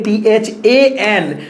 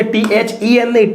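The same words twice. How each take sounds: First: Slow spelling ટી એચ એ એન letter by letter; ટી એચ એ એન given slowly as the right spelling. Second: Spelling out ટી એચ ઈ એન letter by letter as the wrong one; letters ટી એચ ઈ એન named one at a time. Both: Shown as a demonstration. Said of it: "then નો spelling ખોટો છે".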